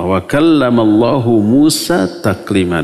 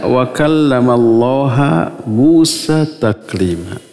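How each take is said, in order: First: The word Allah ends with a 'u' vowel. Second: The word Allah ends with an 'a' vowel. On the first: God spoke directly to Moses. The speaker calls it right. "tanda rafa dengan dhammah, maka dibaca wa kallamallahu" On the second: Moses spoke directly to God. The speaker calls it wrong. "Allahnya dibaca ha"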